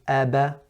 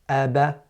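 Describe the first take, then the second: First: The b is followed by an open a vowel. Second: The b is followed by an open a vowel.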